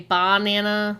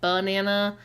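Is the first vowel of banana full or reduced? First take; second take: full; reduced. First: The first syllable has a full ah vowel. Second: The first syllable has a weak schwa vowel. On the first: The speaker calls it wrong. "the first like ba, we don't really say banana" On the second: The speaker calls it right. "we just say banana"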